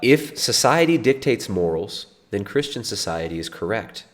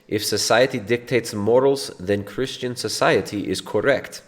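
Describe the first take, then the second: First: It is read in the speaker's normal accent. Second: It is read in a put-on foreign accent.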